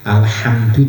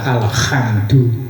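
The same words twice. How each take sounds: First: The h is a smooth breathy throat sound. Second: The h is a rasping kh sound. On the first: The speaker calls it right. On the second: The speaker calls it wrong.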